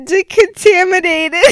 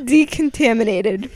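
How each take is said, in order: First: Decontaminated rushed after false starts; fumbled long word; stumbling pronunciation. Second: Finally nailing the long word; careful pronunciation. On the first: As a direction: trip into the word. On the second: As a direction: get Decontaminated right this time. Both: Shown as a demonstration. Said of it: "decontami-, oh, decam".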